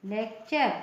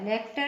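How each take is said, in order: First: The ending is pronounced 'cher'. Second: The ending is pronounced 'ter'. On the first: The speaker calls it right. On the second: The speaker calls it wrong. "लेक्टर नहीं"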